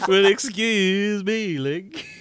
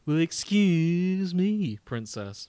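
First: Slow, loud, hammed-up cartoon princess; mock the nineties cartoon princess. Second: Slow, loud, hammed-up nineties cartoon Link; cartoon prince voice. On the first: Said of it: "I'm not gonna do it as". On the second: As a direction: drawl it like a cheesy cartoon hero. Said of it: "I'm gonna do him with the ... voice". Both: Shown as a demonstration.

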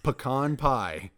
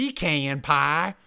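First: "Pecan" as puh-KAHN; puh-KAHN version. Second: "pecan" as PEE-can; PEE-can version. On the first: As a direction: say "Pecan pie" slowly, stressing a long AH in KAHN. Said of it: "Say it then". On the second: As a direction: say "pecan pie" with stressed PEE and flat A. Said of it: "that has no ring to it". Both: Shown as a demonstration.

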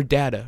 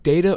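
First: "data" said DAT-uh; short-a pronunciation. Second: "Data" said DAY-tuh; long-a pronunciation. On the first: Host quoting his question, "data" as DAT-uh. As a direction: say "data" with an open "ah"-like first vowel. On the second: Host quoting his question, "Data" as DAY-tuh. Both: Retold or imitated. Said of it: "I was like, data or data".

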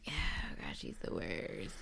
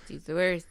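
First: Very quiet, breath-only whisper; whispered dismay. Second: Said in the usual way. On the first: Real, not acted. Disgusted aside about the contestant.

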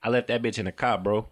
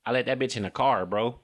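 First: Chicago "car" as a short "kah"; casual Chicago r-less delivery; Chicago accent. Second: Quick Detroit "car" with the r sounded; brisk Detroit delivery; Detroit accent. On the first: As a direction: drop the r in "car" like a Chicago native. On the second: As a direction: say it Detroit-style, keeping the r in "car". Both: Acted.

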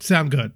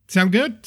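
First: "Sound good." falling flat like a statement; statement tune. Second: "Sound good?" rising at the end like a question; question tune. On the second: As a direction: ask "Sound good?" with an upward lift on "good". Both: Acted.

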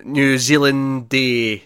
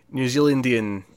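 First: Slow, drawn-out "Zealandy", left unfinished; trying out a demonym. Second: "Zealandian" completed with -ian, falling at the end; trying out a demonym. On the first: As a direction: feel out "Zealandy" slowly, stretching the end. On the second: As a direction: settle on "Zealandian" with a falling ending. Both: Shown as a demonstration. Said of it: "don't know how to say it".

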